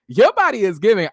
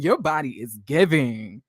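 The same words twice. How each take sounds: First: Your body is giving, higher and louder; hyped-up compliment. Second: Said in the usual way. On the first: Real, not acted. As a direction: gush it out with excitement. Repeats compliment, then hypes it.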